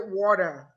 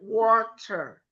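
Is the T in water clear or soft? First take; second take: soft; clear. First: The T in the middle is soft, not clearly released. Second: The T in the middle is clearly pronounced. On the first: "I didn't say water" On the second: "I pronounced the T"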